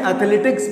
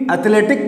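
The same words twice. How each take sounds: First: एथलेटिक्स ending in a KS cluster; final S sounded. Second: एथलेटिक ending on a bare K; no final S. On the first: Teacher showing students the correct game name, एथलेटिक्स with final S. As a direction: keep the S after the K in एथलेटिक्स. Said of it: "एथलेटिक्स बोलते हैं". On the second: Teacher showing students the form not used, एथलेटिक without final S. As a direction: drop the final S sound from एथलेटिक. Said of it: "एथलेटिक नहीं बोलते हैं". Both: Shown as a demonstration.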